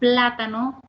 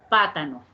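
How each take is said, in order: First: The word begins with the cluster p-l. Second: The word begins with p alone, without l. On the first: This is the adult target form. The speaker calls it right. "en vez de decir plátano" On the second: This is how young children say it. The speaker calls it wrong. "dicen pátano"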